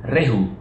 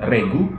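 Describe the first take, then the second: First: The middle consonant is an h sound. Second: The middle consonant is a hard g sound. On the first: "tidak disebut rehu" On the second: "tidak disebut regu"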